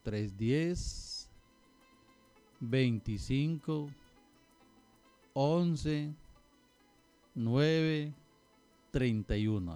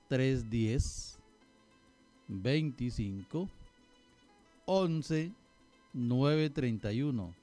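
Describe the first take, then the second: First: The number is said slowly. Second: The number is said at normal speed.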